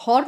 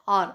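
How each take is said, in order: First: हॉर with a clear spoken h, as a mistake; hour with the h said aloud; wrong pronunciation. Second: आर with a silent h, just आर; hour said as आर; right pronunciation. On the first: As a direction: say हॉर with the h sounded. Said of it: "हॉर नहीं बोलते". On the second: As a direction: say आर, dropping the h. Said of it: "हम बोलते हैं आर". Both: Shown as a demonstration.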